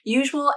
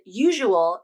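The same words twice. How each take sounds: First: The word is said with two syllables. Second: The word is said with three syllables. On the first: "Usual as two syllables" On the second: "usual as three syllables"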